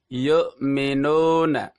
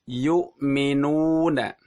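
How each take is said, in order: First: The u vowel is weak with lips barely rounded. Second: The u vowel is full with lips pushed forward. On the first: The speaker calls it wrong. "mulut kita kurang maju atau kurang monyong" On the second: The speaker calls it right. "Yang benar adalah"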